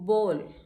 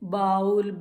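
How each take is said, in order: First: The vowel sounds like 'oh' in go. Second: The vowel sounds like 'ow' in cow. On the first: The speaker calls it right. "The correct pronunciation for it is बोल।" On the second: The speaker calls it wrong. "No, this is wrong."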